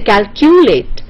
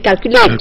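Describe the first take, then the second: First: The stress is on the middle syllable. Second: The stress is on the first syllable. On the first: The speaker calls it wrong. "you don't say calculate" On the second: The speaker calls it right. "you say calculate"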